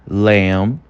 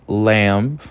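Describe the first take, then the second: The two takes are said the same way.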